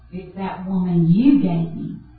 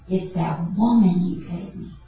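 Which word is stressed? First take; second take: you; woman. First: The stress falls on the word you. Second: The stress falls on the word woman. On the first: The blame is placed on God. "he could have said it this way" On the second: The blame is placed on the woman. "he blames the woman"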